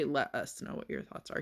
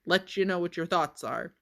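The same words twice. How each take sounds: First: Said in the usual way. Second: Louder, with "you" said in place of "us" and stressed; dad's exact wording. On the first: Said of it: "he didn't say". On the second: Shown as a demonstration. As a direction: lean on "you" in "Let you know". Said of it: "He said".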